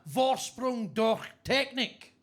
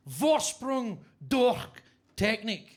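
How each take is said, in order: First: Mock German slogan. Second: Slow, drawn-out hammed-up German slogan; mock German accent. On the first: Quoting the Audi slogan. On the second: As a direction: stretch it out like a bad German advert. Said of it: "as they say in Germany".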